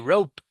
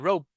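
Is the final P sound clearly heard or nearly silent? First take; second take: clear; nearly silent. First: The final P is clearly pronounced. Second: The final P is barely heard at all. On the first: "Instead of say rope" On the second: "sometimes you don't even pronounce it"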